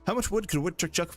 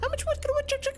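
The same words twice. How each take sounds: First: It is said in a normal-pitched voice. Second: It is said in a raised, high-pitched voice.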